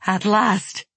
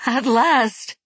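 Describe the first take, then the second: First: Tearful. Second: High, loud tearful joy; ecstatic cry. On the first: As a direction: murmur it through tears. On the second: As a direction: cry out in rapture. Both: Acted. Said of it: "wept Yori".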